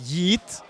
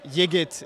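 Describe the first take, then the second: First: The name is said with a soft Turkish g. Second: The name is said with a plain English g. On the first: "if you really, really want to pronounce it the Turkish way" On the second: "but Yigit is enough"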